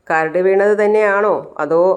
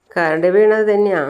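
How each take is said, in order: First: "തന്നെയാണോ അതോ" lifted into a question; doubting question. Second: Slow statement, "തന്നെയാ" falling at the end; insistent answer. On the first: Sachi checks if it was really dust, doubting question on "തന്നെയാണോ". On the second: Wife covers up her crying, slow insistent fall on "തന്നെയാ". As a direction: confirm it slowly, settling down on "തന്നെയാ". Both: Acted.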